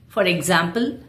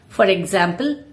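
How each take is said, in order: Both takes have the same delivery.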